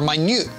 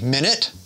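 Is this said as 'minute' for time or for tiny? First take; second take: tiny; time. First: It is said like the word meaning very small. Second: It is said like the word for sixty seconds. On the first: It means a small amount. "meaning a small amount" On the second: It names a unit of time. "meaning a unit of time"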